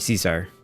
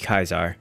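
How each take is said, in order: First: The name begins with a soft S sound. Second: The name begins with a hard K sound. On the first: This is the later form of the name. The speaker calls it wrong. "you can blame Shakespeare for Caesar" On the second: This is how the name was said in its own time. The speaker calls it right. "the correct pronunciation for that time period would be Kaiser"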